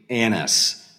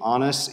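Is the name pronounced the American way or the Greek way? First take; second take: American; Greek. First: The name is said with an American pronunciation. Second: The name is said with a Greek pronunciation. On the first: "If I pronounce it like Americans do" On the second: "I'm doing more of the Greek pronunciation of Annas"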